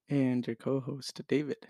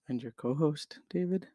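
First: It ends falling, like a statement. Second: It ends rising, like a question.

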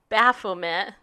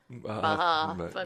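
First: The first vowel is short and plain. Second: The first vowel is drawn out like a bleat. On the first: "Did I say that right?" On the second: "I would give the A more of a sound, like kind of like a sheep"

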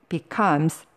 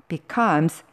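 No difference in how they are said.

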